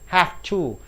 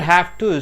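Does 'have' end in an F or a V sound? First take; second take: F; V. First: The word have ends with an F sound. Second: The word have ends with a V sound.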